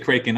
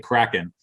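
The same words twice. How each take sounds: First: The first syllable sounds like 'cray'. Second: The first syllable sounds like 'crack'. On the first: This is the other person's way of saying it. "You say Kraken" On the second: This is the speaker's own way of saying it. "I say Kraken"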